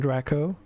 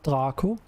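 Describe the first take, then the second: First: The name is said with an English pronunciation. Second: The name is said with a non-English pronunciation.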